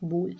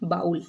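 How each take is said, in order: First: The vowel sounds like 'oh' in go. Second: The vowel sounds like 'ow' in cow. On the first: The speaker calls it right. "ये बोल होता है" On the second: The speaker calls it wrong. "इसको लोग गलत pronounce करते हैं, इसको लोग पढ़ते हैं बाउल"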